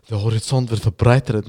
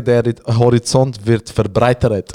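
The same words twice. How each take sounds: First: Said in the usual way. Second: Slow, drawn-out, self-important proverb; pompous slow aphorism; mock-wise saying. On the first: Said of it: "Ich so, ja, ähm". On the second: Shown as a demonstration. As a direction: savor it like a wise quote. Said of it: "Oder wie ich so gut sage".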